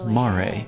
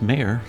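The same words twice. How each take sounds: First: The name is said with a Japanese pronunciation. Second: The name sounds like the end of nightmare. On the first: "I know some about Japanese pronunciation, so I assumed it was Mare" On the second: "maybe it's Mare for nightmare"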